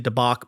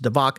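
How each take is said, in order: First: The middle consonant is a B sound. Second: The middle consonant is a V sound. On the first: "so you could say dabak" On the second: "but it's pronounced davak"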